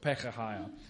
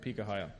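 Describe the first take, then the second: First: The h sound is rough and from the throat. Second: The h sound is plain and light. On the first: The speaker calls it right. "you have to get your throat in on these things" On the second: The speaker calls it wrong. "that's a very American way of saying it"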